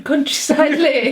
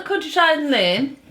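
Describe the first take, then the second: First: "countryside lane" slowly, with a clear "tree-side"; slow, separated syllables in "countryside lane"; careful pronunciation. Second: "countryside lane" slurred into "cuntashine lin"; tongue-tied "countryside lane", losing the r and d; garbled pronunciation. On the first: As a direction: pronounce "countryside lane" carefully after stumbling. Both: Real, not acted. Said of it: "What was that language?".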